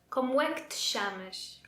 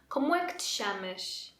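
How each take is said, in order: The two takes are said the same way.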